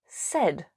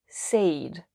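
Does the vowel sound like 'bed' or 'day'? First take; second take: bed; day. First: The vowel is short, as in bed. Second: The vowel is long, as in day. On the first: The speaker calls it right. "the pronunciation is said" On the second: The speaker calls it wrong. "not said"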